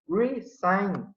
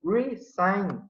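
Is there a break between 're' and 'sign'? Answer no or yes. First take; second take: yes; yes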